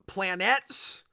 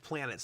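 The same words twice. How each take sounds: First: The word is pronounced in an odd, unusual way. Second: The word is pronounced in the ordinary way. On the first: "why does George pronounce it planets?" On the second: "like a normal person"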